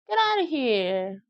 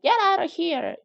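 First: It is said in a disbelieving, playful tone. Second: It is said in an annoyed, hostile tone. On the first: What was just said is hard to believe. "누가 얘기한 게 안 믿어져서요" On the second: The listener is told to go away. "기분 나쁘게"

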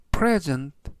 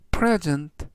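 First: The stress is on the first syllable. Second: The same.

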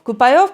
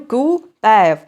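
First: The middle vowels sound like 'ai' and 'o'. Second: The middle vowels sound like 'e' and 'ye'. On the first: The speaker calls it wrong. "я намагаюся вимовити щось на кшталт Купайов" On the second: The speaker calls it right. "Але ж він Купеєв"

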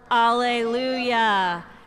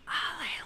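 First: The word is said at normal loudness. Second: The word is whispered.

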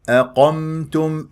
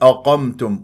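First: The opening glottal stop sounds light and thin. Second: The opening glottal stop sounds heavy and emphatic. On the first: The speaker calls it right. "الهمزة مرققة" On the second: The speaker calls it wrong. "وهذا خطأ"

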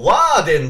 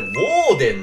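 First: The first vowel is an open 'ah' sound. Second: The first vowel is a rounded 'oh' sound. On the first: The speaker calls it wrong. "俺はずっと、ワーデンだと思ってました。" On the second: The speaker calls it right. "これ、ウォーデンなんですね。"

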